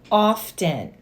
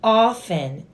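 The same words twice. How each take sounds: First: The word is said with the T pronounced. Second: The word is said with a silent T. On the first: The speaker calls it wrong. "not often" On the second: The speaker calls it right. "it's often, The T is silent"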